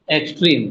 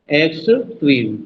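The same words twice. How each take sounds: First: Said in the usual way. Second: extreme slowly broken as "x", pause, "trim"; split syllables. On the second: Shown as a demonstration. Teacher testing stress for students, extreme split slowly in two. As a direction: sound out both parts of extreme slowly. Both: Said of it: "अब बोल के देखो".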